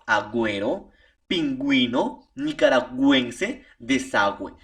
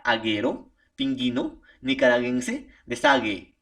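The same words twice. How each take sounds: First: Agüero, pingüino, nicaragüense, desagüe with the U sounded as gw; pingüino said ping-GWEE-no, nicaragüense nee-kah-rah-GWEN-seh; U pronounced. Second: Aguero, pingüino, nicaragüense, desagüe read without the U, hard G only; pingüino said ping-GHEE-no, desagüe deh-SAH-gheh; silent U. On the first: Student reading examples to the professor: each U sounded as gw. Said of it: "Para poder pronunciar la U". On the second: Student showing the professor the words without diéresis: U silent. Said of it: "si no tiene diéresis, ¿cómo diría?". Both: Shown as a demonstration.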